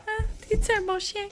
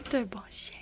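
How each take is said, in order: First: Talking to a dog. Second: Said in the usual way. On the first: Real, not acted. Asking her dog.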